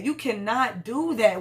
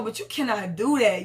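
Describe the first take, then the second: First: "You cannot do that" slowed, each word pressed; slow emphatic repeat. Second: Said in the usual way. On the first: Real, not acted. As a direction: spell out "cannot" slowly and firmly.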